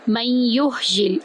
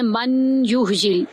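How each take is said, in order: First: The n sound is merged into the y. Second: The n sound is clearly kept before the y. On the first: The speaker calls it right. "हम इसको मीम को या में दाखिल करेंगे" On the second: The speaker calls it wrong. "कुछ लोग पढ़ जाते हैं मन युह्यिल, मन नहीं पढ़ेंगे"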